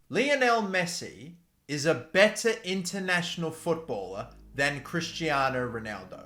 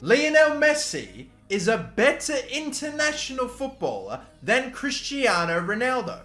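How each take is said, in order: First: It is said in a plain, ordinary way. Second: It is said forcefully, with full chest voice.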